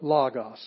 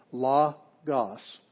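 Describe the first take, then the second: First: "logos" as one word, punched on LO; stress on first syllable. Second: "logos" slowly split into LO, GOS; syllable by syllable. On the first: Teacher showing the accent mark, "logos" stressed on LO. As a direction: hit the LO of "logos" and let GOS fall. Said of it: "that's the one we hit". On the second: Teacher showing students the two syllables, "logos" said slowly in parts. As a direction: break "logos" in two with a gap between syllables. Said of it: "So it's two syllables". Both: Shown as a demonstration.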